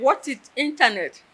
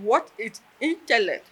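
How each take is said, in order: First: "internet" instead of "intellect", louder and higher; "internet" in place of "intellect", hearing-aid mishearing; misheard as internet. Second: "intellect" said clearly, ending -lect; "intellect" with a clear l and k sound; intellect said right. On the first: Deaf student repeats the question as she misheard it. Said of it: "What did I hear?". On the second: Lecturer asks the class what intellect means, clearly. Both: Retold or imitated.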